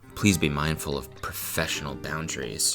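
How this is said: It is said in a flirty, teasing tone.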